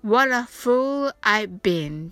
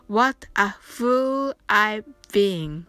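First: What a said as one word, waɾa, with a flapped t; linked what a. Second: What a fool I've been run together as one quick phrase; fast linked phrase. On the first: Teacher shows students the linked what a. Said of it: "what aと発音してください". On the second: Teacher shows students the fast linked phrase. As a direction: blur the words together. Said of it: "は早く発音してください". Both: Shown as a demonstration.

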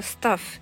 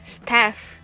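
First: English "stuff" for スタッフ, short near-closed uh vowel; スタッフ with a short, central "uh"; stuff, said properly. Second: English "staff" for スタッフ, vowel between a and e; スタッフ with an open "æ" vowel; staff, the contrasting word. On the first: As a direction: say スタッフ as English stuff, mouth barely open. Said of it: "もうちょっとちゃんと言うと". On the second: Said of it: "ではないよっていう". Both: Shown as a demonstration.

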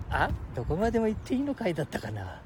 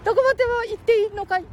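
First: Said in the usual way. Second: Put-on high squeaky boy voice; cheeky little kid, much higher; Ken-chan voice.

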